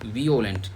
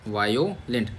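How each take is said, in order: First: The word begins with a 'vee-oh' sound. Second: The word begins with a 'vye' sound. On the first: The speaker calls it right. "वीओलेंट बोलो" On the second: The speaker calls it wrong. "इसमें वायो बोलने के चक्कर में"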